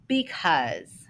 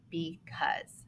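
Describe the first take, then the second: First: Said in the usual way. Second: The word said softly, falling. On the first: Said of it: "first word is". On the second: Shown as a demonstration. Teacher softly repeating the word for the class, quiet. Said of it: "How many syllables are in".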